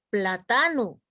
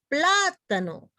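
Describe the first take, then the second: First: The stress is not on the first syllable. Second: The stress is on the first syllable. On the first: The speaker calls it wrong. "no decimos plátano" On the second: The speaker calls it right. "decimos plátano. Y esa es una palabra esdrújula"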